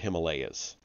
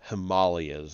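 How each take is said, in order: First: The word is said in the ordinary, common way. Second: The word is said in an affected, pretentious way.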